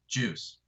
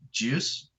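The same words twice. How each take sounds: First: The voice falls at the end like a statement. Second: The voice rises at the end like a question.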